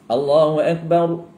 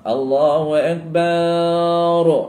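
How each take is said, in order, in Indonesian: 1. Vokal setelah b pendek. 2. Vokal setelah b dipanjangkan. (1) "boleh yang tu" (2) "dia panjangkan pada baru, ha, itu salah"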